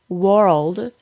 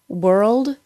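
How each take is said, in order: First: The vowel sounds like 'or'. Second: The vowel sounds like 'er'. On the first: The speaker calls it wrong. "So don't say world or ward" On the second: The speaker calls it right. "The sound should go from the W sound immediately to the R sound"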